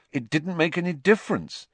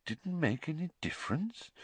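First: Put-on bitter boy's protest, pitched high; Harry, bitter. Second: Hushed, questioning echo, lifted in pitch; Dumbledore, quiet. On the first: Harry rejects the praise, bitterly. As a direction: throw it out bitterly, high-voiced. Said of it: "said Harry bitterly". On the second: Headmaster queries Harry's claim, quietly. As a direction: hand it back softly as a question. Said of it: "said Dumbledore quietly". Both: A narrator's reading.

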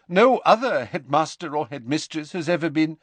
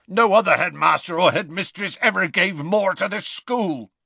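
First: Stern professor, cut off. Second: Growled Hagrid. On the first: McGonagall cut off. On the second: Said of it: "growled Hagrid". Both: A narrator's reading.

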